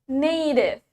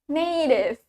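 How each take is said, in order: The two takes are said the same way.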